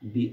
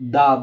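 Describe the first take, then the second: First: The vowel sounds like a long 'ee'. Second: The vowel sounds like a short 'uh'. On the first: "তখন সেটির উচ্চারণ হবে দি" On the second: "তখন এটার উচ্চারণ হবে দা"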